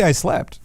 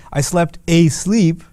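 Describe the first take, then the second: First: Said in the usual way. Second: "I slept asleep" said slowly, leaning on "asleep"; stress on asleep. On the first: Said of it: "You could just say". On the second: Shown as a demonstration. Teacher showing students the emphatic Arabic way, slow, stressing "asleep". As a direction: draw out "asleep" to show the emphasis. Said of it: "But they'll say".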